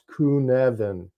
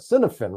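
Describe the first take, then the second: First: It is said with the native Welsh pronunciation. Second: It is read with an English-style pronunciation. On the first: The speaker calls it right. "but it's actually pronounced Cynefin" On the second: The speaker calls it wrong. "from an English standpoint or standpoint, we call it Cynefin"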